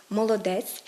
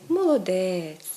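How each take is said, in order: First: Said in the usual way. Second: "молодець" with a long drawn-out last vowel; emphatic stress. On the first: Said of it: "Якщо ми промовимо слово". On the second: Shown as a demonstration. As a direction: stretch the е in "молодець". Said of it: "протягнемо один зі звуків у цьому слові".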